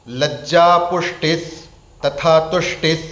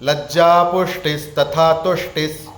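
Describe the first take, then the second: Both takes have the same delivery.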